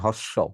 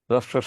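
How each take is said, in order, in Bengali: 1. এটি পরিষ্কার 'h' ধ্বনি দিয়ে শুরু হয়। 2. এটি 'r' ধ্বনি দিয়ে শুরু হয়, কোনো 'h' নেই। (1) "একজন বলছেন হর্ষ। হর্ষ বলতে কোনো উচ্চারণ বাংলায় নাই।" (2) "হয়ের নিচে রফলা থাকলে হ বাদ। ... এটা হবে র।"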